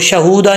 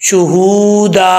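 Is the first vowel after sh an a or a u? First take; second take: a; u. First: The first vowel is an a sound. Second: The first vowel is a u sound. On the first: The speaker calls it wrong. "इसको शहूदा नहीं पढ़ना" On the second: The speaker calls it right. "शीन के ऊपर पेश है"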